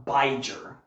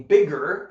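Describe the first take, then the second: First: Biger with a long i, "BY-jer"; long vowel mistake. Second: Bigger with a short i, "BIG-er"; short vowel. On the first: Teacher showing a misspelling's sound, long vowel in biger. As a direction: say biger as if it rhymed with Niger. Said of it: "make it a long vowel". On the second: Teacher showing the intended word, short vowel in bigger. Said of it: "instead of it being bigger". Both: Shown as a demonstration.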